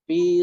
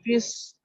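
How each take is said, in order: First: The word ends without a doubled consonant. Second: The following s is doubled onto the word. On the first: The speaker calls it right. "Jadi fi sabilillahi" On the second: The speaker calls it wrong. "Jangan fis, nggak ada tasdid"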